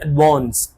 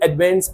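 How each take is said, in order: First: It is said with a British accent. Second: It is said with an American accent. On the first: "British बोलते हैं" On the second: "American pronounce करते हैं"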